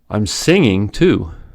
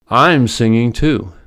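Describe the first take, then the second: First: The main stress falls on another word. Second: The word I'm carries the main stress.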